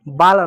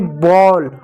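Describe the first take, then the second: First: The vowel is an open 'ah' sound. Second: The vowel is a rounded 'aw' sound. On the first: The speaker calls it wrong. "बाल नहीं होता" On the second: The speaker calls it right. "ए को यहाँ पर औ की मात्रा पढ़ रहे हो"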